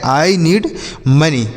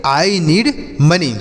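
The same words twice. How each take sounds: First: Said in the usual way. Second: Slow, word by word. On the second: Shown as a demonstration. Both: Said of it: "तो ऐसे आप इसे बोलेंगे".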